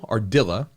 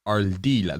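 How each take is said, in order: First: The R is said as a plain English R. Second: The R is said as a rolled R. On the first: The speaker calls it wrong. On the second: The speaker calls it right.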